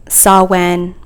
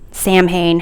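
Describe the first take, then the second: First: Samhain said "SAH-wen", with a W and no M; alternative pronunciation. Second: Samhain said as spelt, "sam-hayn"; alternative pronunciation. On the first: Host unsure of the festival's name, Samhain as "sah-wen". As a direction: pronounce Samhain as "sow-wen". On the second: Host giving the other version of the name, Samhain as "sam-hayn". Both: Shown as a demonstration. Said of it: "however you pronounce it".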